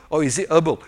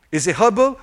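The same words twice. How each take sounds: First: HERBAL with a silent h, "erbal"; herbal without H. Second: HERBAL with the initial h sounded. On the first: Preacher showing US variants of a word, herbal with silent h. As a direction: drop the h from herbal. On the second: Preacher showing US variants of a word, herbal with h. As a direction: pronounce the h at the start of herbal. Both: Shown as a demonstration. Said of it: "certain words are pronounced differently".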